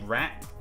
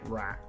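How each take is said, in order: First: The final T is clearly released. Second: The final T is dropped or unreleased. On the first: The speaker calls it wrong. "Who the hell pronounces the T in rat?" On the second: The speaker calls it right. "It's just rat. That's how you say it"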